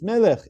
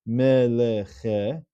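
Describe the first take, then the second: First: The word ends sharply on the final consonant. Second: The word ends with an extra short vowel. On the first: The speaker calls it right. "but it's melech. It closes off the syllable" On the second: The speaker calls it wrong. "It's not pronounced as meleche, which would be a shavana"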